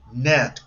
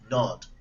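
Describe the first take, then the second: First: The vowel is a short, unrounded A-like sound. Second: The vowel is an open, rounded O sound. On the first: The speaker calls it right. "como una A corta" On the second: The speaker calls it wrong. "And it is not the right form"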